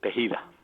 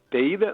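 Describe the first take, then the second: First: The h sound is pronounced with aspiration. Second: The h sound is silent, not pronounced. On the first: The speaker calls it right. "pronúncialo correctamente" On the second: The speaker calls it wrong. "pero la H es muda"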